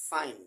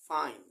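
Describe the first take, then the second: The two takes are said the same way.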